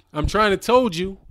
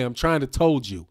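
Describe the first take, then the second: First: "told" said deliberately instead of tell, higher and louder; deliberate wrong grammar. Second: Said in the usual way. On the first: Shown as a demonstration. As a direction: punch "told" high and loud as a joke. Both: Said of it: "I'm gonna say it that way".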